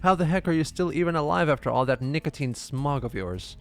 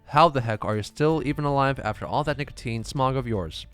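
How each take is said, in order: First: It is said as a rising question. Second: It is said as a falling statement.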